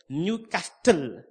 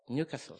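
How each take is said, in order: First: The word is drawn out fully. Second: The word is clipped short. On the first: The speaker calls it wrong. "That's the way I used to pronounce it" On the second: The speaker calls it right. "You cut it off"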